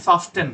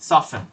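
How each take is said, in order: First: The t sound in the middle is pronounced. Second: The t sound in the middle is silent. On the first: The speaker calls it wrong. "এটার উচ্চারণ কিন্তু সফটেন না" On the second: The speaker calls it right.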